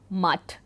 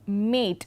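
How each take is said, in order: First: The vowel is a short a. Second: The vowel is the diphthong a. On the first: This is the older pronunciation. "was initially only a short a" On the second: This is the modern pronunciation. "currently is pronounced with this diphthong a"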